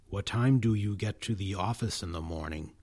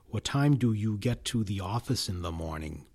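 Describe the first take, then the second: First: Function words like do are fully pronounced. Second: The same.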